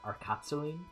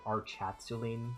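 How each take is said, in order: First: The name starts with a hard 'ark' sound. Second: The name starts with a soft 'arch' sound. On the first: "I'm assuming this is pronounced like Arc, instead of, like, Arch" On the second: "it would be like Archatsuline. That'd be kind of weird"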